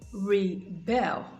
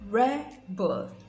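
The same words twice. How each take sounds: First: The stress is on the second syllable. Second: The stress is on the first syllable. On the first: It is used as a verb. "rebel is the verb" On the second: It is used as a noun. "rebel is the noun"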